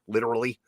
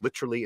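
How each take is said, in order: First: It is said with an American-style pronunciation. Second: It is said with a British-style pronunciation. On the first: This is the usual general American way, not the character's. "instead of literally" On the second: This is how the character says the word. "he says literally instead of"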